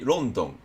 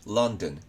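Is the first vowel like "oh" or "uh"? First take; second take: oh; uh. First: The first vowel is a rounded "oh" sound. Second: The first vowel is a short "uh" sound. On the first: The speaker calls it wrong. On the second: The speaker calls it right.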